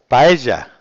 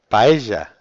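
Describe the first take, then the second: First: The word is said with an Argentine-like sound. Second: The word is said with an Argentine-like sound.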